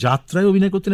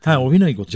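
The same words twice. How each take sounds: First: অভিনয় pushed up high and loud, the rest lighter; stress on অভিনয়. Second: Said in the usual way. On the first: Shown as a demonstration. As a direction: lean hard on the word অভিনয়. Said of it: "আমি এটা জোর দিচ্ছি এই কারণে". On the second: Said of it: "আমি এটা জোর দিচ্ছি".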